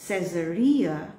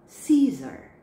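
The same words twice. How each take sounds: First: Caesarea said ses-uh-ree-uh, stress on ree. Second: Caesar said see-zer, stress on see. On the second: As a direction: Caesar with the first syllable stressed. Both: Shown as a demonstration. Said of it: "See the difference?".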